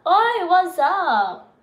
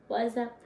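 First: Loud, high, drawn-out call; hollered greeting. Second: Soft, understated murmur. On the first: Streamer hailing viewers, loud drawn-out holler. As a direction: holler it slowly, pitched up. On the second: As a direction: drop it down quietly. Same greeting dropped low afterwards. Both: Pretend.

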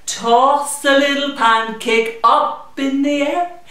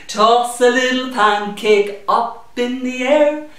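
The two takes are said the same way.

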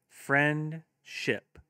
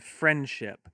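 First: Said in the usual way. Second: Friendship said slowly, two clear parts; slow syllables. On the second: Shown as a demonstration. Teacher modelling clapping for kids, friendship slowed into two beats. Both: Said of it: "have your kids clap".

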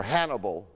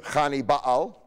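First: Said in the usual way. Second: "Hannibal" said as KHAH-nee-pahl, throaty kh, p for b; Phoenician Hannibal. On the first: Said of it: "as we say". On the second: Shown as a demonstration. Lecturer showing the Phoenician original name, KHAH-nee-pahl. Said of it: "Phoenician name".

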